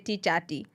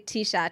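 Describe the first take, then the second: First: The word ends with a 'chati' sound. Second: The word ends with a plain 'shirt' sound. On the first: Someone else said it this way. The speaker calls it wrong. "he used to say t-chati" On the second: This is the standard way to say it. The speaker calls it right. "he couldn't say t-shirt"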